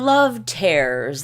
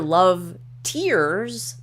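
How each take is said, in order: First: The word 'tears' rhymes with 'bears'. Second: The word 'tears' rhymes with 'fears'. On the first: Something being ripped apart. "like your heart being ripped apart" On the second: The drops that fall when crying. "like ones you cry"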